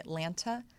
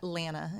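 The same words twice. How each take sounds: First: Both T sounds are pronounced, outsider style. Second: The second T is dropped, local Atlanta style.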